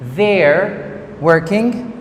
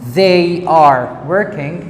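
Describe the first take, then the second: First: The pronoun and verb merge into one syllable. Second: The pronoun and verb are said as separate words.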